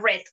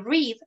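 First: It sounds exactly like the word red. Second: It does not sound like the word red. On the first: This is the past form of the verb. "Se pronuncia igual que el color rojo, red" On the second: This is the base form of the verb. "la pronunciación de read"

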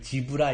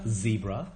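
First: The word starts with a j-like sound. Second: The word starts with a buzzing z sound. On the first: The speaker calls it wrong. "지브라 이렇게 하면 안 되는 거예요" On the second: The speaker calls it right.

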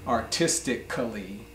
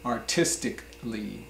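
First: The 'a' before the final 'lly' is pronounced as a full syllable. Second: The 'a' before the final 'lly' is dropped. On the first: The speaker calls it wrong. "you might think it is pronounced artistically" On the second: The speaker calls it right. "but we just say artistically"

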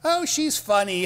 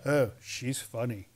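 First: It is said in an amused, laughing way. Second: It is said in a wary, unamused way. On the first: She is comical and makes people laugh. "They don't go, "Oh, she's funny, ha ha."" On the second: She is strange and a bit unsettling. "They go"

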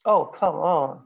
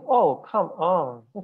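First: It sounds like an annoyed protest. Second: It sounds like a pleading request. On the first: Please don't do that. "제발 하지 말라는 얘기죠" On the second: Please do it for me. "제발 해달라는 얘기예요"

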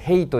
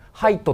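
First: The vowel sounds like 'ay'. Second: The vowel sounds like 'eye'. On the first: The speaker calls it wrong. "これヘイトじゃないから気をつけてね" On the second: The speaker calls it right. "ハイトって発音しますからね"

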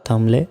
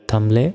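Both takes have the same delivery.

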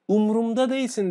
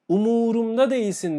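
First: The second vowel of the first word is dropped. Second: The second vowel of the first word is kept. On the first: The speaker calls it wrong. "dediğinizde yanlıştır" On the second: The speaker calls it right. "dediğinde doğrudur"

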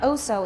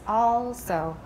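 First: The first vowel is said with the mouth fairly closed. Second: The first vowel is said with the mouth wide open. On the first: The speaker calls it wrong. "not also" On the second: The speaker calls it right. "it's also. Everybody, just 张开嘴巴, just open it"

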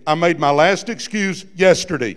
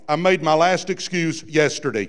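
First: It is said forcefully, with strong conviction. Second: It is said plainly, with ordinary energy.

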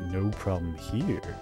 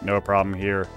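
First: It is said in a suggestive, flirty tone. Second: It is said in a plain, neutral tone.

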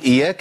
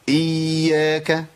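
First: The y sound is short and single. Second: The y sound is held and doubled. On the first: The speaker calls it wrong. "أما أقول إياك يبقى أنا جبت هي واحدة" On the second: The speaker calls it right. "لابد من بيان تشديد الياء ... يبقى أقولها إزاي؟"

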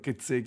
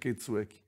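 First: The word is said as kezeki. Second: The word is said as ketsueki. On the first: The speaker calls it wrong. "ho sbagliato solo a pronunciarlo" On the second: The speaker calls it right. "invece è Ketsueki"

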